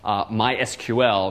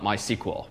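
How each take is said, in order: First: The name is said with more syllables. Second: The name is said with fewer syllables. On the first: This is the company's own pronunciation. "they do in fact pronounce themselves MySQL" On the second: This is not the company's own pronunciation. "not MySQL ... a lot faster and fewer syllables"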